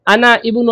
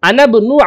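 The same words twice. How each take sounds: First: The vowel starting ibnu is pronounced separately. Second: The vowel is silent, linking the n to b. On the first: The speaker calls it wrong. "इसको ऐसे नहीं पढ़ेंगे" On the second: The speaker calls it right. "ये बिल्कुल साइलेंट हो जाएगा। ये नून को बा से जोड़ देंगे।"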